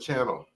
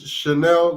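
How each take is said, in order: First: The name is said the slang way. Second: The name is said the standard way. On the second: "answer is Chanel number five"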